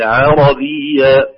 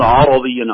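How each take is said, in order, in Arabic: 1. تُنطق العين في أولها خفيفة ورقيقة. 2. تُنطق العين في أولها ثقيلة وغليظة. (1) "تخليص ترقيق العين" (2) "لا نقول عربيا"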